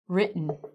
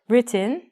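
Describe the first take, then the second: First: The T and its vowel are dropped. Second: The T and its vowel are clearly pronounced. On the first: The speaker calls it right. "we take out the T and the E" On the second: The speaker calls it wrong. "We don't say written, I do"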